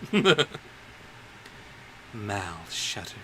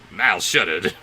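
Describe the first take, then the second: First: It is read in a put-on villain voice. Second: It is read in the speaker's normal voice. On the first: The speaker calls it right. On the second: The speaker calls it wrong.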